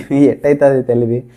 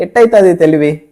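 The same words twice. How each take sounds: First: Laughing. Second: Said in the usual way. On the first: Retold or imitated. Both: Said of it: "ఇది నా tactic, నా తెలివి".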